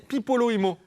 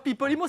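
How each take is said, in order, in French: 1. Le nom se prononce en cinq syllabes. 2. Le nom se prononce en quatre syllabes. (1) "c'est Pipolo-Imo" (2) "c'est pas Pipolimo"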